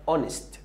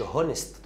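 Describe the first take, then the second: First: اونست starting on the vowel, no h; silent h. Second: هونست with a spoken h at the start; wrong h sound. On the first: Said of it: "اسمها اونست". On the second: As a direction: say هونست voicing the h, as the error. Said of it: "ما تقولش هونست". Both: Shown as a demonstration.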